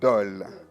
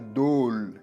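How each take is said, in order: First: The o is said open and short. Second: The o is said closed and rounded. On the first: The speaker calls it right. "On dit dol" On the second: The speaker calls it wrong. "on ne dit pas dôle, parce qu'il n'y a pas de chapeau"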